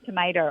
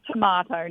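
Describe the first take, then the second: First: "tomato" said tuh-MAY-doh; long "ay" in the middle of "tomato"; American pronunciation. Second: "tomato" said tuh-MAH-toh; broad "ah" in the middle of "tomato"; Australian pronunciation. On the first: Singer puzzled by her own habit, American-style "tomato". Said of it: "how I would have said tomato". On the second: Wife showing how her American husband talks now, Aussie-style "tomato". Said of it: "he says tomato now". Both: Shown as a demonstration.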